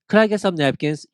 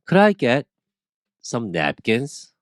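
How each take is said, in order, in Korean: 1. 문장을 쉬지 않고 빠르게 말합니다. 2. 문장을 쉬어 가며 천천히 말합니다. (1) "이렇게 하면은 못 알아들어요" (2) "Could I get 필요한 것 퍼수 주시고"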